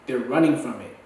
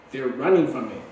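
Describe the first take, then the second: No difference in how they are said.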